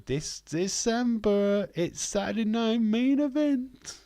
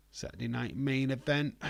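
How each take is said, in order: First: Big booming ring announcer call, stretched out slow; high, drawn-out announcer hype. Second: Said in the usual way. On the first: Pretend. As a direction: sell it like a wrestling announcer building hype. Hyping the upcoming show title.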